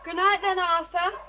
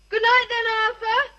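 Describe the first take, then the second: First: It is said at a normal, quieter volume. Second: It is said louder than before.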